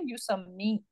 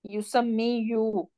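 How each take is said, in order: First: The word ends with a long 'ee' sound. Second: The word ends with a final 'yu' syllable. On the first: The speaker calls it right. "we say yusammi" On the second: The speaker calls it wrong. "but we do not say yusammi you"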